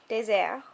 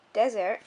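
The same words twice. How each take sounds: First: "désert" with é like a long A; "désert" the French way, long-A é; French pronunciation. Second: Said in the usual way. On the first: Shown as a demonstration. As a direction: say "désert" in French, first vowel as in "make". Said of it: "in French, it's kind of like a long A". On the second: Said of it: "in French".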